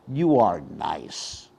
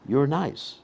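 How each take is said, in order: First: It is said in a mocking, sarcastic tone. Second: It is said in a warm, sincere tone. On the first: The speaker means the listener is not nice. "then it's very sarcastic" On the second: The speaker really thinks the listener is nice. "That's actually very positive"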